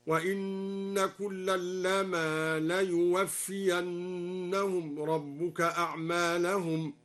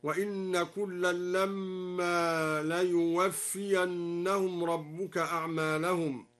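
First: Slow recitation, لما with a single short m, "lama"; measured tartil with لما said "lama", one m; light mim in لما. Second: Slow recitation, لما with a held double m, "lamma"; measured tartil with a long hummed mm in لما; doubled mim in لما. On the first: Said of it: "بتخفيف الميم من لما". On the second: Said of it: "قرأ الدوري بتخفيف الميم من لما". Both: Shown as a demonstration.

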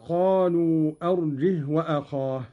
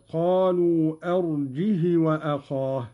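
First: Said in the usual way. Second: "أرجه" with the final ha given a short i; short kasra on the ha. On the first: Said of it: "قرأ قالون وصلًا". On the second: Shown as a demonstration. Teacher demonstrating Qalun's reading to learners, short kasra on the ha of "أرجه". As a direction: link "أرجه" to "وأخاه" with a short, unlengthened "hi". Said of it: "بتحريك الهاء مكسورة بدون مد".

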